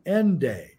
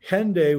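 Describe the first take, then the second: First: The word begins without an h sound. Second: The word begins with an h sound.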